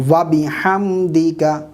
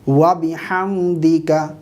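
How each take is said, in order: Both takes have the same delivery.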